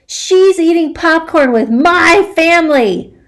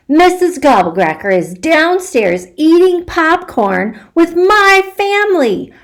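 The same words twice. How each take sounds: First: Indignant insist. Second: Excited. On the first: Repeats news insistently. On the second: Child rushes to tell secret. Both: Acted.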